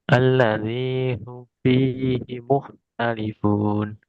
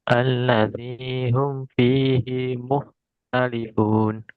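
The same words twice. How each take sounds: The two takes are said the same way.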